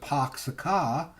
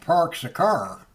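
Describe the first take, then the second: First: It is said in a Massachusetts accent. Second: It is said in a Southern drawl. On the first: "people that from Massachusetts" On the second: "people down south"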